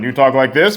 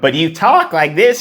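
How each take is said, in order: First: The speaking voice is pitched low. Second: The speaking voice is pitched high.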